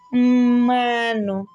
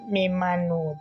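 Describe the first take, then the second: First: The first m runs straight into mano. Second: A vowel follows the first m sound. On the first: The speaker calls it right. "but mm, me, mmano" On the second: The speaker calls it wrong. "Don't say mm, me, me mano"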